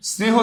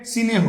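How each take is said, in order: First: Said in the usual way. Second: সিনেহ as two syllables, si-neh, not the cluster sneh; teacher demonstrating সিনেহ; vowel inserted. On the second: Shown as a demonstration. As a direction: break স্নেহ apart into সিনেহ. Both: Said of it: "স্নেহ থেকে".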